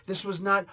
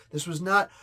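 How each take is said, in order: Both takes have the same delivery.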